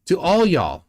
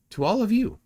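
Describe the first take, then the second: First: Texan y'all. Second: Said in the usual way. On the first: Shown as a demonstration. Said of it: "not from Texas, but that's how they'd say it". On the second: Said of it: "but that's how they'd say it".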